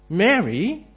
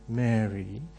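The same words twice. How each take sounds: First: It is said as a sharp rebuke. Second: It is said tenderly and dreamily.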